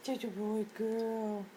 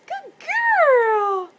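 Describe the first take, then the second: First: Slow, lower coo to a pet; affectionate, unhurried pet talk; tender praise. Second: Very high, loud, drawn-out squeal; big cooing pet-talk cheer; gushing praise. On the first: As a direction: croon soft, drawn-out praise. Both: Real, not acted.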